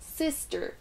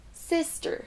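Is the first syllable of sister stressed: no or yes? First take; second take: yes; yes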